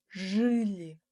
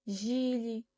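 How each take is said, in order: First: The vowel after zh is a 'ы' sound. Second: The vowel after zh is an 'i' sound. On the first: The speaker calls it right. "и деп дыбыстамаймыз, ы деп дыбыстаймыз" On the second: The speaker calls it wrong. "бұл сөздерді біз қате дыбыстаймыз"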